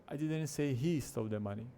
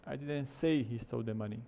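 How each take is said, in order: First: "he" stretched and emphasized; stress on HE. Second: "say" punched and lengthened; stress on SAY. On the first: Teacher comparing the two versions, stress on "he". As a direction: put all the weight on "he". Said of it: "a ênfase na primeira vez tá no he". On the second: Teacher contrasting the second version, stress on "say". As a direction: put all the weight on "say". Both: Shown as a demonstration.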